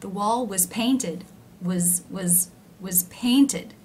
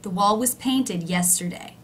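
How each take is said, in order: First: Slow it down and keep "was" low; slow demo of low was. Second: "was" low and quick in "The wall was painted yesterday"; natural pace. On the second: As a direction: say it at normal speed, "was" low. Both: Shown as a demonstration. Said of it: "Do you see how it's lower in pitch?".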